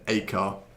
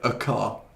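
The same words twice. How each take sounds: First: The article is a full, strong 'ay' sound. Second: The article is a short, weak 'uh' sound. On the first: This is the emphasized form. "as opposed to" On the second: This is the usual, unemphasized form. "we usually say like"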